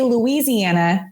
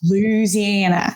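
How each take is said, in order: First: It is pronounced the way outsiders say it. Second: It is pronounced the way locals say it. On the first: The speaker is not from the place. The speaker calls it wrong. "then you're obviously not from Louisiana" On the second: The speaker is from the place. The speaker calls it right. "it's Louisiana"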